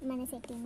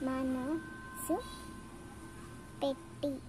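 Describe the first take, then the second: First: The p sound is dropped, merging the words. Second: Both words are said fully, with the p. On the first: The speaker calls it wrong. "it is a illiterate word" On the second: The speaker calls it right. "We have to use మనసు పెట్టి"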